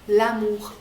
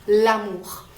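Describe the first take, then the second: Both takes have the same delivery.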